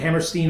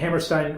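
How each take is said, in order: First: The last syllable rhymes with 'seen'. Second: The last syllable rhymes with 'wine'. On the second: "You actually said it right the first time"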